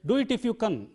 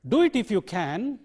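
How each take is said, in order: First: The word can has a reduced vowel. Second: The word can has its full vowel. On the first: The speaker calls it wrong. "You can't say" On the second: The speaker calls it right. "can coming at the end, so it takes a strong form"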